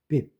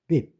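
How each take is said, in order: No difference in how they are said.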